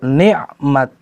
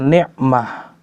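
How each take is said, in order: First: The word ends with a t sound. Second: The word ends with an h sound. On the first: The speaker calls it right. "ni'mat, bukan ni'mah" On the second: The speaker calls it wrong. "bukan ni'mah"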